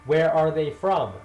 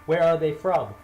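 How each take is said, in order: Both takes have the same delivery.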